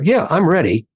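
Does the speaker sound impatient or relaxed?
impatient. It sounds hurried, clipped and impatient. The person is not really ready to talk. "then they're already telling you, well, they're maybe not ready"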